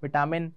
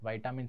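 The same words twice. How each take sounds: First: विटामिन said as vi-ta-min, short i in first syllable; vi-tamin. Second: विटामिन said as vai-ta-min, long ai in first syllable; vai-tamin. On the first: Teacher recalling how the class learned it by rote, vi-tamin. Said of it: "रटा हुआ था बच्चों से विटामिन". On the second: Teacher showing the correct way to say the word, vai-tamin. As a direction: say विटामिन with "vai" at the start, like the English vitamin. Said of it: "विटामिन सही है बोलना". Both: Shown as a demonstration.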